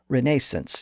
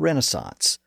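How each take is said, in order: First: It is said with a British pronunciation. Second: It is said with an American pronunciation.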